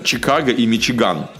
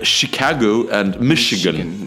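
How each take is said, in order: First: It is said without a Northern US accent. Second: It is said with a Northern US accent. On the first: This is not how northerners say it. "На севере, например, не говорят" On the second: This is how northerners say it. "Они говорят"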